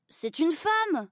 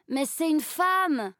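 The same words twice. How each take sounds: First: Aigu et lent, indigné; garçon scandalisé. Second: Aigu et lent, buté; répète, têtu et outré; garçon qui insiste. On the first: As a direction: appuie sur femme, outré. (garçon indigné, voix aiguë et lente) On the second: (garçon qui insiste, voix aiguë et lente) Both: A narrator's reading.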